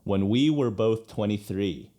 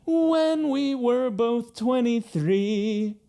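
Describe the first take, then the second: First: Spoken naturally, emphasis on "we"; stress on WE. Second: High, slow singing with "When" stretched and stressed; sung, forced into melody. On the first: Coach speaks the line to show natural emphasis, stress on "we". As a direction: speak the line with weight on "we", not "When". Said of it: "the emphasis is on the we". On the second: Coach shows unnatural emphasis on first syllable, singing. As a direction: sing it high, forcing the weight onto "When". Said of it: "force it into the melody". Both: Shown as a demonstration.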